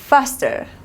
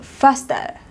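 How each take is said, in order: First: It is said in an American accent. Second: It is said in a British accent.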